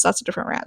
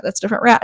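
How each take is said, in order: First: Whispered softly under the breath; hushed, voiceless aside to herself. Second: Said in the usual way. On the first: Real, not acted. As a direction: drop to a whisper for a throwaway aside.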